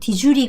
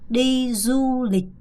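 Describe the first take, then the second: First: The 'd' in 'du' sounds like a 'j'. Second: The 'd' in 'du' has no 'j' sound. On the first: The speaker calls it wrong. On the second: The speaker calls it right.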